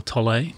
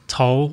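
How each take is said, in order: First: Tolle in two syllables, like toll-ay; alternative pronunciation of Tolle. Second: Tolle said as one syllable, like toll; first pronunciation of Tolle. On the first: Speaker offering a name's other pronunciation, Tolle as toll-ay. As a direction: sound the final e of Tolle as ay. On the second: Speaker offering a name's possible pronunciations, Tolle as one syllable. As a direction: say Tolle without sounding the final e. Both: Shown as a demonstration. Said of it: "depending on how you just, uh, pronounce that".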